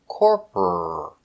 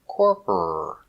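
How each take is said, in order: Both takes have the same delivery.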